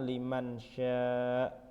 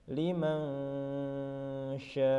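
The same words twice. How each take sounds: First: The n is pronounced as a clear n. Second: The n blurs into a nasal ng sound. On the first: The speaker calls it wrong. "bukan liman sya" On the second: The speaker calls it right. "Jadi membacanya liman sya"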